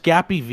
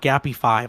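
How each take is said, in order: First: The ending is said as the letter V. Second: The ending is said as the number five. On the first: The speaker calls it right. "it's just Gappy V" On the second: The speaker calls it wrong. "it's not Gappy five"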